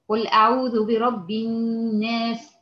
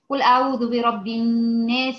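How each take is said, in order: First: It is recited at a medium pace. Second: It is recited quickly but clearly. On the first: "هقرا بتدوير" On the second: "هقرا بحدر"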